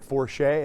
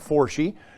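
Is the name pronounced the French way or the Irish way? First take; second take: French; Irish. First: The name is pronounced the French way. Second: The name is pronounced the Irish way. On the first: The speaker calls it wrong. "Do not pronounce it Forshee" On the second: The speaker calls it right. "That is Irish, not French"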